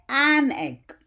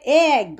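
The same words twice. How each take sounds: First: "an egg" with a full, clear "an"; correct article. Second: "a egg" with "a" said as "ay"; incorrect article. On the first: Teacher showing the correct form, a clearly linked "an egg". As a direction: link the n of "an" into egg. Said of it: "we say". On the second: Teacher showing what not to say, "a egg" without an n. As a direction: run "ay" straight into egg, no n. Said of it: "We don't say". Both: Shown as a demonstration.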